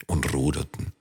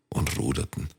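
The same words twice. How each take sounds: The two takes are said the same way.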